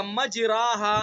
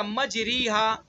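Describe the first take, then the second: First: مجراہا with a full open a; wrong alif. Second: مجریہا with a full ee sound; wrong ya. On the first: Teacher showing the alif reading of مجریہا. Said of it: "اگر الف پڑھیں گے". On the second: Teacher showing the ya reading of مجریہا. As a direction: say مجریہا with a pure ya vowel, as the wrong way. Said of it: "اور یا پڑھیں گے". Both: Shown as a demonstration.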